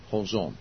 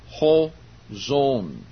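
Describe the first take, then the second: First: "Ho zon" quietly repeated as a model, low and settled; Greek repeated softly. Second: "ho zon" with a lifted "ho", then a falling "zon"; Greek pronounced. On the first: Preacher repeating the Greek for his listeners, soft and low. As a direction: murmur "Ho zon" once more so they catch it. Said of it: "That's how you pronounce that". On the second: Preacher teaching the Greek words to his congregation, emphatic. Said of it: "So I'll pronounce that for you". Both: Shown as a demonstration.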